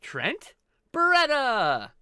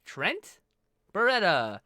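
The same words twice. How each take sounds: First: "Trent" held level, then a loud, high, booming "Beretta!"; ring announcer. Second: Said in the usual way. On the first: Retold or imitated. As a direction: bellow the name like a wrestling ring announcer. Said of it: "the announcement on that, on A E W". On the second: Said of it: "the announcement".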